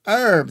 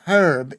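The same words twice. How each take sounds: First: It is said with the old French pronunciation. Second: It is said with the modern pronunciation. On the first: "the old French pronunciation" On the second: "herb is modern"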